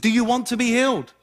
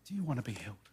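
First: The question sounds harsh and impatient. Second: The question sounds soft and gentle. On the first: The asker is condemning the man. The speaker calls it wrong. "Jesus was like, listen" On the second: The asker is showing mercy to the man. The speaker calls it right. "He said it like this"

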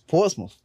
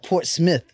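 First: The second syllable does not sound like smith. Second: The second syllable sounds like the word smith. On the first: The speaker calls it right. "It's not Smith. It's Portsmouth" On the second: The speaker calls it wrong. "Not Port Smith"

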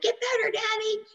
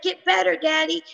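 First: It is said in a two-year-old's voice. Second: It is said in her normal adult voice.

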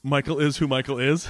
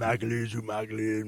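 First: It is said in a Forrest Gump voice. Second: It is said in a Sling Blade voice.

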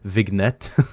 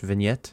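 First: It is said with a Swedish accent. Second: It is said in an ordinary American accent. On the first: "which is a Swedish accent" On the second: "Is that how we say that in English?"

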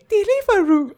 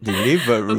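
First: It is said in a high-pitched voice. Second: It is said in a normal voice.

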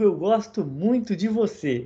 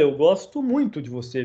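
First: It is said warmly, with a smile. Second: It is said in an angry way.

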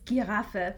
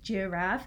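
First: The word is pronounced the German way. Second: The word is pronounced the English way. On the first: "in German the word is giraffe" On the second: "in English we say like giraffe"

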